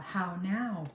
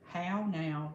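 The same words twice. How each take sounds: First: It is said in a neutral standard accent. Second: It is said in a Southern drawl. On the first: This is the trained way of talking. The speaker calls it right. "so they had to get that out of me" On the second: This was the speaker's natural way of talking. The speaker calls it wrong. "Of course, I say"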